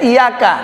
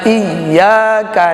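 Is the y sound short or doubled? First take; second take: short; doubled. First: The y sound is short, not doubled. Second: The y sound is held and doubled. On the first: The speaker calls it wrong. "Satu aja hilang tasdidnya, batal salatnya" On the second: The speaker calls it right. "I Y Y A K"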